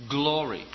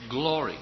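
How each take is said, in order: No difference in how they are said.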